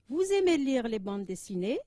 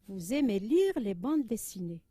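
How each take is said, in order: First: The voice rises at the end. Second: The voice falls at the end.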